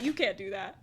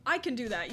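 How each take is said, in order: First: "You" hit loud with a rise at the end; stress on You. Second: "I" hit loud; stress on I. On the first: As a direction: lean hard on "You", setting it against the speaker. Contrasts the game with herself. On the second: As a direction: lean hard on "I", setting it against the other. Contrasts herself with the game. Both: Real, not acted.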